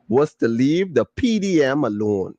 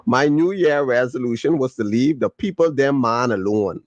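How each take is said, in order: First: "P D M" said as three letters, P, D, M; "P D M" as plain initials; spelled letters. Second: "people them man" read out as full words, people dem man; "people them man" spoken as a phrase, not letters; dialect reading. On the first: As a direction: reads "P D M" letter by letter like an acronym. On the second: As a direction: reads "people them man" in Caribbean style. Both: Shown as a demonstration. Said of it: "let me read it how it's supposed to be read".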